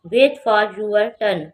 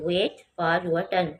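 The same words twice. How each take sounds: First: Very slow and louder, "wait" stressed; loud slow model reading. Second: Very slow, at normal volume; quiet slow repeat. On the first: Teacher modelling the sentence loudly before spelling "wait". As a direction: call it out slowly and loudly, hitting "wait". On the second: Teacher repeating the sentence calmly after spelling "wait". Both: Shown as a demonstration. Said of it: "W A I T".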